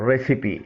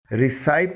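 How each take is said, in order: First: ریسیپی said "RES-i-pee"; three syllables in ریسیپی, final ee; correct recipe pronunciation. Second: ریسائپ said "ri-SIPE"; two syllables, ریسائپ rhyming with "wipe"; wrong recipe pronunciation. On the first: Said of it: "اس کی درست pronunciation ہے". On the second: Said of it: "نہیں پڑھا جائے گا". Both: Shown as a demonstration.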